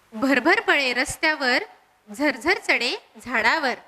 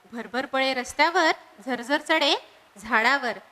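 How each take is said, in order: No difference in how they are said.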